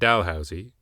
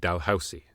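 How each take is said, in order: First: The middle consonant is a buzzed Z sound. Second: The middle consonant is a hissed S sound. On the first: This is how the name of a university in Halifax is said. The speaker calls it wrong. "not Dalhousie, like a Haligonian university" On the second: This is how the Scottish earl said his own name. The speaker calls it right. "Being Scottish, he pronounced his name Dalhousie"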